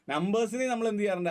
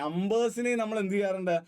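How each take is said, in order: First: നമ്പേഴ്സിനെ pushed harder, the whole question quicker; insistent repeat. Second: Said in the usual way. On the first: Shown as a demonstration. Teacher repeating the question to prompt students, fast and insistent. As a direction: repeat it faster to prod the class.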